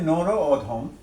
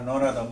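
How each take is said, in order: First: It is said as two separate words. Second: It is said quickly as one joined word. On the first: "পার্থক্য এখানে দুইটা শব্দ" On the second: "এই শব্দটা দ্রুত বলার সময় কি হয়েছে?"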